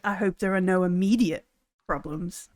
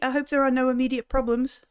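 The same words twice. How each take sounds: First: It is said in a darker, menacing tone. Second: It is said in a plain, friendly tone. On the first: It hints at a veiled threat. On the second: It is a sincere wish that all is well.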